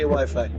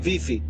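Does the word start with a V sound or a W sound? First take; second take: W sound; V sound. First: The word begins with a W sound. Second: The word begins with a V sound. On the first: This is how it is said in English. "We don't say Wi-Fi" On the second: This is how it is said in Romania. "in Romania we say Vifi"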